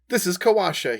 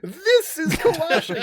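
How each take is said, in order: First: It is said in the speaker's normal voice. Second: It is said in Volo's put-on character voice.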